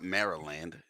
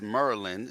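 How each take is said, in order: First: The name is said in full as 'Mary-land'. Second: The name is squeezed into two syllables, like 'Merlin'. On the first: The speaker calls it wrong. "It's not Maryland" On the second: The speaker calls it right. "Just remember who say it's Merlin"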